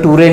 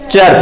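First: The ending is said as 'too-ray'. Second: The ending is said as 'cher'. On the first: The speaker calls it wrong. "टूरे नहीं पढ़ना है" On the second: The speaker calls it right. "इसको क्या पढ़ते हैं, चर पढ़ते हैं"

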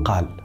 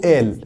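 First: The word starts with a clear q sound. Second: The word starts with a glottal stop, no q. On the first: "في تونس يقولوا قال" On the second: "في مصر يقولوا آل"

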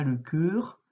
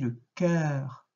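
First: The vowel in cœur is closed. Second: The vowel in cœur is open. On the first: The speaker calls it wrong. "On ne dit pas le cœur" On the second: The speaker calls it right. "on dit le cœur. ... on ouvre"

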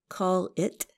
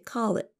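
First: The final T is clearly released. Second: The final T is held and not released. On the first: "Instead of saying call it" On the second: "we say call it with a held T"

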